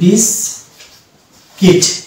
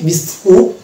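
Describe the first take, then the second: First: The second syllable has an 'i' vowel. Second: The second syllable has a 'u' vowel. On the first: The speaker calls it right. "Original pronunciation হবে বিস্কিট" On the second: The speaker calls it wrong. "কিন্তু বিস্কুট হচ্ছে রং pronunciation"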